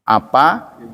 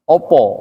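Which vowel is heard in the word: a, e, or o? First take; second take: a; o. First: The word is said with an a vowel. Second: The word is said with an o vowel. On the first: "ada yang bacanya A" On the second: "dan bacanya O"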